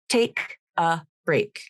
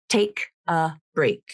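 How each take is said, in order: The two takes are said the same way.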